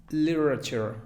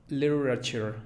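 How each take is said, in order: No difference in how they are said.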